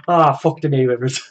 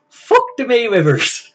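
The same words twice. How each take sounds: First: Said in the usual way. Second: Higher, slowed, put-on voice, dragged out; catchphrase impression voice. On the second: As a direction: ham up the catchphrase in a borrowed voice, slowly. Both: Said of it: "do your fuck the Mayweather impression again".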